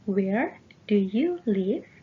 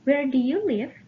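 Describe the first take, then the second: First: It is spoken at a slower pace. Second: It is spoken at a faster pace.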